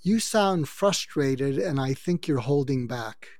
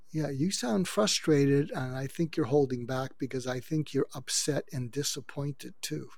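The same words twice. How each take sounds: First: Slow, steady empathetic line; name their feeling gently and slowly; calm empathy. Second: Softer calm empathy. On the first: Coaching a listener to calm a venting partner, slow and gentle. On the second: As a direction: ease it out gently, almost hushed. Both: Shown as a demonstration. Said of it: "And you say to them".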